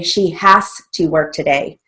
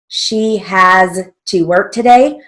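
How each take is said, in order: First: "Has" ends with a hissing s sound. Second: "Has" ends with a buzzing z sound. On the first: The speaker calls it wrong. "We don't say" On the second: The speaker calls it right. "so we use our final Z"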